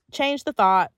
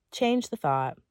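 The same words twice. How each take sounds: First: Change the thought said loud and high; firm command. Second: Said in the usual way. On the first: Shown as a demonstration. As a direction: punch "change the thought" like an order. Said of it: "repeated command, emphasized". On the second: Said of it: "repeated, calmer take".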